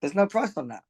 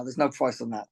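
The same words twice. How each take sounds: First: Said in the usual way. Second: Getting emotional. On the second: Real, not acted. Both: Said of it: "I'm getting emotional now".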